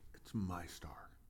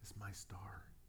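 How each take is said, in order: First: It is said angrily and forcefully. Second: It is said gently and calmly.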